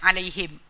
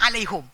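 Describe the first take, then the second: First: It ends with an 'im' sound, Quraisy style. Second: It ends with an 'um' sound, tribal style.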